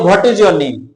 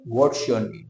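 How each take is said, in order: First: Each word of 'what is' is said separately. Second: 'What is' is reduced to one syllable. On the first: The speaker calls it wrong. "हम लोग बोलते हैं" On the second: The speaker calls it right. "जबकि बोलना क्या चाहिए"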